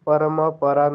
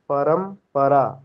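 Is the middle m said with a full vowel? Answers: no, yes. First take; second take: yes; no. First: The middle m carries a full vowel. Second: The middle m is said without a vowel. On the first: The speaker calls it wrong. "हम परमपरा नहीं बोलते हैं" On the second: The speaker calls it right. "उसको क्या बोलते हैं"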